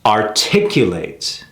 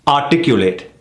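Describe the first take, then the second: First: "articulate" slow and lower, weight on TIC; ar-TIC-u-late, slowly; slow correct stress. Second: "Articulate" with a heavy first syllable; wrong stress on articulate. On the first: Teacher modelling the right stress on "articulate". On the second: Teacher showing the mistake on "Articulate". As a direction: punch the AR of "Articulate". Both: Shown as a demonstration.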